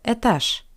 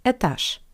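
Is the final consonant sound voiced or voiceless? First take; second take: voiceless; voiceless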